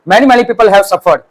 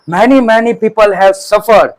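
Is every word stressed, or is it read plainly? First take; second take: plainly; every word. First: It is read plainly without special stress. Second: Each word is stressed heavily and separately.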